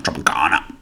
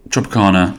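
First: Tropicana dropped lower and softer, rising at the end; low repeat. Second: Said in the usual way. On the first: Shown as a demonstration. Repeating the juice name to listeners, low and softer.

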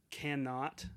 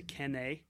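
First: Said in the usual way. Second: "cannae" as one word, "CAN-nay"; Scottish "cannae". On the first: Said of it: "instead of saying". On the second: Shown as a demonstration. Podcaster showing Scottish dialect for cannot, "cannae" said "CAN-nay". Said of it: "in the Scottish dialect".

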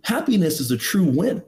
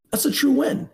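First: Said in the usual way. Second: "true win" repeated much higher and emphatic; "That's a true win" pitched high with a punch on it. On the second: Shown as a demonstration. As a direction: lift the repeat up to drive the point home.

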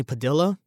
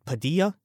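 First: "Padilla" said with an L sound, pa-DIL-uh; unsure "Padilla", ending in "-illa" with L; pronunciation with L. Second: "Padilla" said pa-DEE-uh, no L sound; questioning "Padilla", ending in "-ee-uh"; Spanish-style pronunciation. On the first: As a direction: say "Padilla" with the double L as an English L. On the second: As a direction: say "Padilla" with a silent double L. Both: Shown as a demonstration. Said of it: "I'm sure that's his last name".

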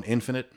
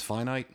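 First: Infinite said IN-fi-nit, short i sounds; pronounced infinite. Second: Finite said FYE-nite, long i sounds; pronounced finite. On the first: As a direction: stress the IN of infinite, both i's short. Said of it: "you pronounce one infinite". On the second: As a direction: stress the FYE of finite, both i's long. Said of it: "one's finite". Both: Shown as a demonstration.

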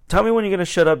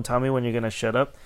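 First: Loud, high cutting interruption; forceful retort. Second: Said in the usual way. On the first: Retold or imitated. Worker cutting off a ranting customer, loud retold retort. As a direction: talk over a ranter firmly. Retelling himself cutting off rant. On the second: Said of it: "when I told him".

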